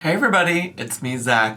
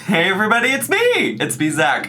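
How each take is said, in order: First: It is said quietly and daintily. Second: It is said loudly and energetically.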